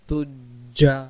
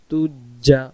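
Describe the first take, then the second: The two takes are said the same way.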